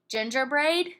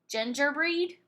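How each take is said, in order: First: The last syllable has a long A vowel. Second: The last syllable has a long E vowel. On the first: "Let's try the long A sound" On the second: "Let's try the long E sound first"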